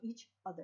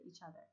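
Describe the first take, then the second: First: The two words are said separately, with a break. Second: The two words are linked with no break.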